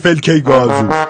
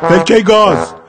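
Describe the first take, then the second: First: The last word ends with an added 'o' vowel. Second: The last word ends without an added vowel. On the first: The speaker calls it wrong. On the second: The speaker calls it right.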